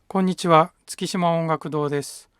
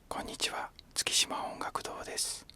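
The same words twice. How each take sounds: First: The voice is fairly loud and full. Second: The voice is a soft whisper. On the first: "大きめな普通の声で喋ってみます" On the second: "ささやき声で喋ってみます"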